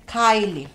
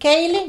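First: The first vowel sounds like 'eye' in my. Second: The first vowel sounds like 'ay' in day. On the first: The speaker calls it right. "que ya me corrigieron" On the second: The speaker calls it wrong. "dijeron que no se dice Kaylee"

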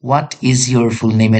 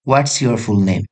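First: What and is are said as two full words. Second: What and is are contracted into one syllable. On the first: "এটা কি pronunciation হয়? জি, অবশ্যই হয়।" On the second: "standard pronunciation বলতে চান তাহলে হবে"

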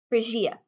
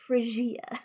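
First: The word is said in a plain, ordinary voice. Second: The word is said in a fancy, posh voice.

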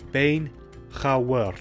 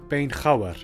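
First: It is said slowly and carefully. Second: It is said at a normal speaking speed. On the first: "and then slowly too" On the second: "I'll pronounce them like I would naturally"

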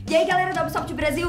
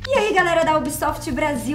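First: It is spoken very fast and run together. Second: It is spoken at a moderate, natural pace. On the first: "Tá muito rápido" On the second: "Meio termo"

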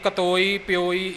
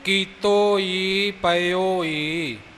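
First: The vowels are shortened and clipped. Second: The vowels are pronounced full and long. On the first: The speaker calls it wrong. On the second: The speaker calls it right.

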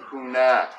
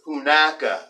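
First: The word ends on a consonant sound. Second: The word ends on an added vowel sound. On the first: "we start off with the word hunak" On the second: "very formally, I'll be pronouncing it hunaka"

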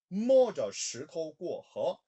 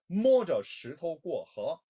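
Both takes have the same delivery.

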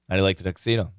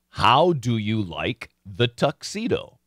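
First: The words are reduced and run together. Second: Each word is said fully and carefully. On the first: "But in real life" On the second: "proper pronunciation. ... That's beautiful English"

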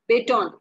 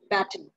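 First: The first vowel sounds like the one in 'bay'. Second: The first vowel sounds like the one in 'bad'. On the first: "If you're pronouncing it as A, B, Tan" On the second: "if you're pronouncing it as Bad"

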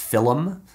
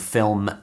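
First: The word is said with two syllables. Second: The word is said with one syllable.

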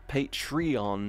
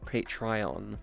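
First: The word ends in a separate 'ee-on' sound. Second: The word does not end in 'ee-on'. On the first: The speaker calls it right. "it's Eon. Patreon" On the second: The speaker calls it wrong. "not Patreon"

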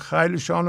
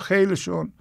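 First: The word ends with the formal 'shan' sound. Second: The word ends with the colloquial 'shun' sound. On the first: The speaker calls it right. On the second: The speaker calls it wrong.

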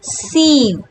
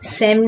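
First: The vowel is a long ee sound. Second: The vowel is a short e sound. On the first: The speaker calls it right. "अब इसमें double E है तो हम कहेंगे सीम" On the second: The speaker calls it wrong. "सेम नहीं"

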